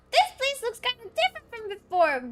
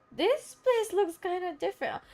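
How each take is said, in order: First: Very high, squeaky game companion; squeaky character voice. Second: Lightly squeaky game companion; high character voice. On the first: Game companion noticing a changed place, squeaky character voice. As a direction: push it right up into a little mascot voice. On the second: Game companion noticing a changed place, high character voice. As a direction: voice it high, a little restrained. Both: Acted.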